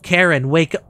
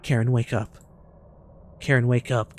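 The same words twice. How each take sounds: First: Karen, wake up called louder; louder plea. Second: Said in the usual way. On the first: Real, not acted. Gamer calling louder to wake a companion. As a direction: push the last Karen, wake up up in volume.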